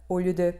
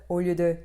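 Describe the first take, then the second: Both takes have the same delivery.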